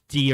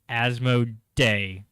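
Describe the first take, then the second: First: The final syllable ends in an 'ee' vowel. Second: The final syllable ends in an 'ay' vowel. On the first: "It's either D or Day" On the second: "that's the one I'm sticking with"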